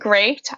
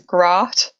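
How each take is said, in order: First: The vowel is the usual long 'ay' sound. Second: The vowel is a short 'a' sound. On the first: "So the word great" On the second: "I say it as grat"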